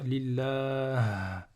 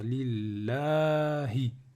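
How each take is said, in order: First: The word ends on a consonant, no final vowel. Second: The word ends with a final vowel sound. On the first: The reciter stops on this word. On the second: The reciter keeps going without stopping.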